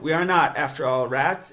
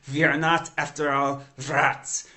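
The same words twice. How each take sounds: First: Said in the usual way. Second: A light imitation of a Northern Italian accent, a little louder; a hint of a Northern Italian accent, slightly vampiric; Northern Italian accent of Andrea Quaroni. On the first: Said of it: "you know? So, like". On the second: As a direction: lightly mimic an old Northern Italian professor. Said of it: "beautiful sort of vampiric, uh, Northern Italian accent".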